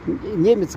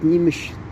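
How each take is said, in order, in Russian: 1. Слово заканчивается на звук 'ts'. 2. Слово заканчивается на звук 'shch'. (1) "немец говорят" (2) "вместо того, чтобы говорить немещ"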